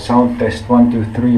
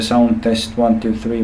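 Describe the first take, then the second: First: The voice sounds muffled and dull. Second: The voice sounds clear and direct.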